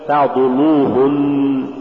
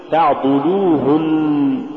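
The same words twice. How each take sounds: First: تعضلوهن with a dark, thick ل after ض; wrongly heavy lam. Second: Said in the usual way. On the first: Shown as a demonstration. Teacher warning against an error, heavy ل in تعضلوهن. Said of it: "ولا تقل". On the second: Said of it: "قل".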